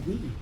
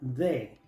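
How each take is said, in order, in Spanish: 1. Termina en una vocal 'ee' larga. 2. Suena como la 'de' del español con una d. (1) "Cuando viene antes de una palabra que empieza con vocal, se pronuncia di" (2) "Muchos pronuncian esta palabra de"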